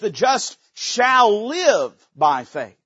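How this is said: The stress is on "shall live".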